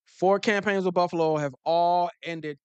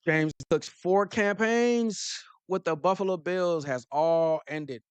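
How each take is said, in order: First: Louder, with heavy stress on Four; loud insistent repeat, Four hit hard; emphatic repeat. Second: Slow, drawn-out headline reading; measured news-read pace; slow deliberate read. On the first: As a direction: punch Four and hammer the line home louder. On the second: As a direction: read it out slowly, letting each word land. Reading the article aloud, slowly. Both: Acted.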